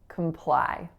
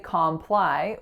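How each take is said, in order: First: The first syllable has a reduced schwa vowel. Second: The first syllable has a full 'com' vowel. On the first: The speaker calls it right. "we make that a schwa" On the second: The speaker calls it wrong. "So we don't say comply"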